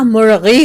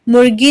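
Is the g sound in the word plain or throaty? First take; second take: throaty; plain. First: The middle consonant is a throaty gh sound. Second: The middle consonant is a plain hard g. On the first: The speaker calls it right. "मुर्गी होता है" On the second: The speaker calls it wrong. "मुर्गी नहीं होता"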